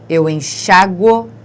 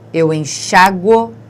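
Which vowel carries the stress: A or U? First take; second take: A; A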